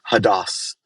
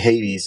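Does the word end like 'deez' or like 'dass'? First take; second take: dass; deez. First: The word ends with a 'dass' sound. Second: The word ends with a 'deez' sound. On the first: This is the original-language form. The speaker calls it right. "but it's Hadass" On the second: This is the familiar English form. The speaker calls it wrong. "when we say Hades, everybody knows what we're talking about"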